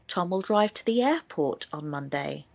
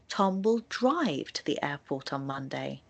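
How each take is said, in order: First: The word airport carries the main stress. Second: The word drive carries the main stress. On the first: Tom is going there and not somewhere else. "the stress will naturally be placed on the word airport" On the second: Tom will not travel there any other way. "the stress will naturally be on the word drive"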